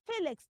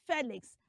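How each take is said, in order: First: Felix as "FEE-lix"; correct pronunciation. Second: Felix as "FEH-lix"; short E in the first syllable of Felix; wrong pronunciation. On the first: Teacher uses it in a question, Felix as "FEE-lix". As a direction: EE sound in the first syllable of Felix. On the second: Teacher rejects the mistake, Felix as "FEH-lix". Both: Shown as a demonstration. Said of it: "not Felix".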